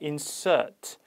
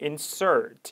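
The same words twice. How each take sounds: First: It is said with a non-American accent. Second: It is said with an American accent. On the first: "insert 이렇게 발음되면서" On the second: "미국식 발음이 아니었기 때문에 insert 이렇게 발음된 게 아니라"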